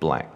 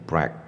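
First: It begins with a clear L sound. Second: It begins with an R-like sound. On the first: The speaker calls it right. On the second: The speaker calls it wrong.

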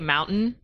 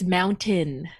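First: The final syllable is swallowed, not fully enunciated. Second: The final syllable is clearly and fully enunciated. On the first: "the way I say mountain" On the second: "my mom's like, it's mountain"

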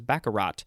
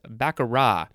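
First: The word ends with an audible T sound. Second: The word ends without a final T sound. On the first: The speaker calls it wrong. "I thought the T was pronounced, so I always thought it was baccarat" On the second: The speaker calls it right. "There's no T, actually, so it's baccarat"

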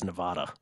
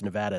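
First: The name is pronounced an outsider's way. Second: The name is pronounced the local way. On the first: The speaker calls it wrong. "as Nevada" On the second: The speaker calls it right. "when people mispronounce Nevada"

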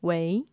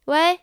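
First: It is said in a low, mature voice. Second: It is said in a high, lively voice.

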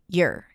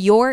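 First: The word has a weak, reduced vowel. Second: The word has a full, clear vowel. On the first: "reduced to your" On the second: "The your is reduced to"

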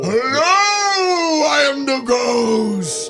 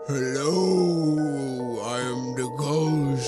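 First: It is said in a livelier, more energetic voice. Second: It is said in a sleepy, low-energy voice.

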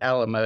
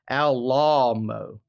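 First: It is said like the familiar English word. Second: It is said in an Italian-sounding way. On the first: This is not how the man said his own name. "he didn't pronounce it Alamo" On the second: This is how the man said his own name. "It was Alamo"

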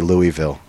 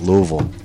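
First: The name is said the way outsiders say it. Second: The name is said the way locals say it. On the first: The speaker calls it wrong. "they get mad at you if you say Louisville" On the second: The speaker calls it right. "that's how they say it"

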